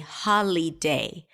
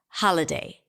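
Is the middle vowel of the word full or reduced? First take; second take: full; reduced. First: The middle vowel is a full vowel. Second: The middle vowel is reduced to a schwa. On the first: The speaker calls it wrong. "I didn't say holiday" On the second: The speaker calls it right. "the middle vowel is a schwa sound"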